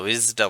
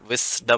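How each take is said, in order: First: The middle consonant is a buzzing Z sound. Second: The middle consonant is a hissing S sound. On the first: The speaker calls it right. "विजडम होता है" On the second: The speaker calls it wrong. "विस्डम नहीं होता"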